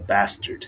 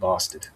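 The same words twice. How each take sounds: First: It is said in an American accent. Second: It is said in a non-American accent.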